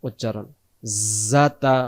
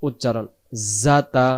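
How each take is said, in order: Both takes have the same delivery.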